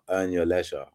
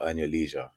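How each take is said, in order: First: Leisure is said with a British pronunciation. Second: Leisure is said with an American pronunciation.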